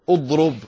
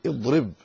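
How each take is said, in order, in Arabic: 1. الحركة الأولى ليست كسرة. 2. الحركة الأولى كسرة. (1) "فلا تقول اضرب، غلط" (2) "اكسر الألف"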